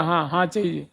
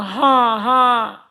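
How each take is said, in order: First: Soft, accepting हाँ, हाँ; agreeing yes. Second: हाँ, हाँ pitched higher as a sharp warning; hushing no. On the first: Teacher showing हाँ as acceptance, soft and agreeable. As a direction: say हाँ, हाँ softly and falling, as a willing yes. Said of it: "स्वीकृति मूलक". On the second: Teacher showing हाँ as a hushing warning, pitched higher. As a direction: say हाँ, हाँ up high to tell someone to stop talking. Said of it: "वो निषेध रूप में". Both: Shown as a demonstration.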